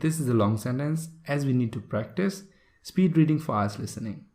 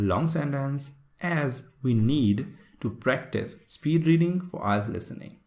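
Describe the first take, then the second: First: It is read quickly with few pauses. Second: It is read slowly with many pauses.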